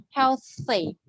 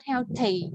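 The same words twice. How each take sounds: First: Tongue between teeth on the th of "Healthy". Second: "healthy" with a t in place of the th; mispronounced th. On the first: Teacher correcting the student's th, correct th sound. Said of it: "Put the tongue in between the two teeth". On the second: Teacher mimicking the student's mistake, t for th. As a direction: say "healthy" as "hel-tee". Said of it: "not healthy". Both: Shown as a demonstration.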